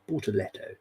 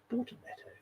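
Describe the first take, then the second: First: Said in the usual way. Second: "Bortoletto." breathed out in a much higher, mock-posh whisper; posh cheese name. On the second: Shown as a demonstration. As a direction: savour "Bortoletto." like a fancy cheese, very high and airy. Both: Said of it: "Sounds like a posh cheese".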